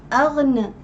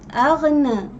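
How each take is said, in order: The two takes are said the same way.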